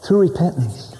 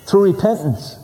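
First: Hushed whispered repeat of "Through repentance"; whispered echo. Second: Said in the usual way. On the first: Acted. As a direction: drop to a whisper to let it sink in. Repeated phrase whispered for emphasis.

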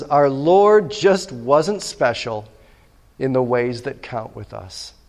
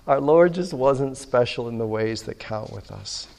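First: Slowly, each word weighed; slow quoted line. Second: Said in the usual way. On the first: Shown as a demonstration. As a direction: read the quote slow and deliberate. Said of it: "He says". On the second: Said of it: "repeated after laugh".

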